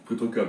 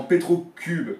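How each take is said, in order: First: Cube reworded with an open "eu" vowel; Cube with English-like vowel. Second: Cube said the French way, higher and louder; French "u" vowel in Cube. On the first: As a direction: correct Cube toward an English sound, more casually. (« Cube » prononcé « keub ») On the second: (« Cube » prononcé à la française) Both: Real, not acted. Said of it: "si tu peux préférer".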